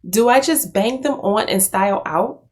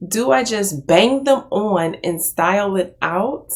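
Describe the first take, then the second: First: Said in the usual way. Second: Laughing while reading. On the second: Real, not acted. Rereads line while laughing.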